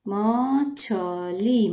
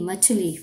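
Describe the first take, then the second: First: मछली stretched very slowly; sounding out slowly. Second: Said in the usual way. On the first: Shown as a demonstration. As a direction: draw out मछली syllable by syllable.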